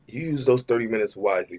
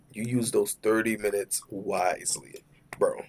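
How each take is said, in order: First: Said in the usual way. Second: Slow whisper of "thirty minutes wisely". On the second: Shown as a demonstration. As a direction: whisper it slowly, knowingly.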